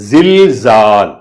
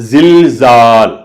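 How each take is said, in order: The two takes are said the same way.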